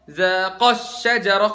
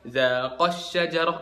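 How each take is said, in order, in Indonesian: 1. Suku kata sebelum 'syajarah' diberi tekanan tambahan. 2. Suku kata sebelum 'syajarah' tidak mendapat tekanan tambahan. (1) "kan dua orang, Adam sama Hawa" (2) "bukan zaqash syajarah"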